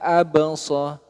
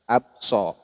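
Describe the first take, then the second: First: The b sound is bounced with an echo. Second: The b sound has no bounce. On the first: The speaker calls it right. "Jadi dipantulkan" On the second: The speaker calls it wrong. "abso itu kurang tepat"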